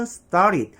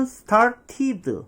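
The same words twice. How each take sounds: First: "started" as "star-rid", tapped T; 원어민식 발음. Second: "started" slowly as "star-tee-duh"; hard T, every syllable of "started" spelled out; 한국식 발음. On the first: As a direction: roll the T of "started" and cut the D short. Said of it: "원어민은". ('started'를 '스따릿'으로) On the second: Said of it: "우리는". ('started'를 '스타티드'로 천천히) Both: Shown as a demonstration.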